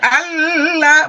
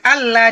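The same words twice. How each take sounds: First: The lam sound is held too long. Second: The lam sound is doubled but short. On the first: The speaker calls it wrong. "jangan Allah" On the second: The speaker calls it right. "cuman Allah dua lamnya tasdid"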